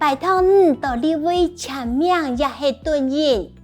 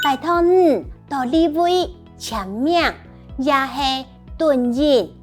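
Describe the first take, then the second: First: The sentence is said at normal speed. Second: The sentence is said slowly.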